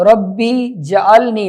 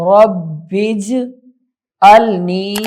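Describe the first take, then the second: First: ربی جعلنی spoken quickly with a vowel on jeem; the common mistake ربی جعلنی; wrong reading. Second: رب اجعلنی with رب joined into اجعلنی, jeem silent; slow recited رب اجعلنی, no vowel on jeem; correct recitation. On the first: (غلط تلفظ: ربی جعلنی) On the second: (صحیح تلفظ: رب اجعلنی) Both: Shown as a demonstration. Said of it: "ربی جعلنی نہیں ہے".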